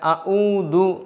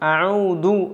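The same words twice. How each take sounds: Both takes have the same delivery.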